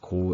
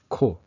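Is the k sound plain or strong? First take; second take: plain; strong. First: The k sound is plain and weak. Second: The k sound is strong and tense. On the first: The speaker calls it wrong. "It's not just ko" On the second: The speaker calls it right. "there's a stronger like sound for the kiok"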